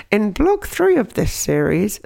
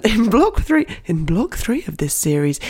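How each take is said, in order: First: Lightly voiced slow questioning listener; a hint of a curious listener voice; impression of the listener. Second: Mild mock listener voice; impression of the listener. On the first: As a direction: mimic a listener raising a point, slowly. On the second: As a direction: play the listener asking with a giggle. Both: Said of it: "this is my impression of you".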